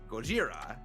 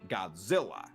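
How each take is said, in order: First: The name is said with a Japanese pronunciation. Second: The name is said with an English pronunciation. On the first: "I'm using the Japanese pronunciation" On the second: "supposed to read, he says Godzilla"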